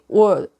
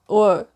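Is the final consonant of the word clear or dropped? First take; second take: dropped; dropped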